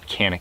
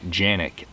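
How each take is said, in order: First: It is said the way Americans say it. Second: It is said the way Turkish speakers say it. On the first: "here in the U S is the proper pronunciation" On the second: "in Turkey they pronounce it"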